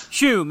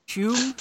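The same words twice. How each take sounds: First: "Shoom." said with a falling tune, louder; firm statement. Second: "Shoom?" asked with a rising question tune; puzzled question. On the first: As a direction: settle on "Shoom." with a confident drop. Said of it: "It's just shoom". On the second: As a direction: try out "Shoom?" as an unsure question, pitch up at the end. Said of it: "what is this, his shroom?". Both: Shown as a demonstration.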